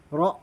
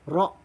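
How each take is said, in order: No difference in how they are said.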